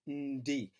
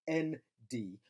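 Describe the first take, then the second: First: The n and di are joined into one sound. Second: The n and di are split into separate sounds. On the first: The speaker calls it right. "but rather as ndi" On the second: The speaker calls it wrong. "you shouldn't pronounce it as"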